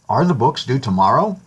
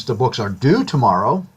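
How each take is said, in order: First: "tomorrow" rising at the end, a question tune; question rise. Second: "tomorrow" said with no rise at the end; level statement, with no lift on "tomorrow"; flat statement. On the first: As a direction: voice lifts on the last syllable of "tomorrow". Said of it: "raising our voice slightly on the last syllable of the last word". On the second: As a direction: state it plainly, with the tune falling on "tomorrow". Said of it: "has no change in emphasis". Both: Shown as a demonstration.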